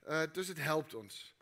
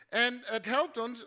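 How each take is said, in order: First: Said in the usual way. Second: Slow, with helpt raised and louder; stress on helpt. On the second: Shown as a demonstration. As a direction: lean hard on helpt, slowly.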